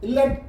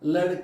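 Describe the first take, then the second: First: The middle is said heavily with a tight throat. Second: The middle is said lightly without strong stress. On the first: The speaker calls it wrong. "ലട്ക അല്ല" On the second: The speaker calls it right. "ലടുക്ക എന്ന് മാത്രം പറഞ്ഞാൽ മതി"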